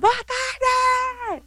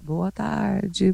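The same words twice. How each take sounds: First: It is shouted in a lively, cheerful voice. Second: It is said quietly in a sleepy voice.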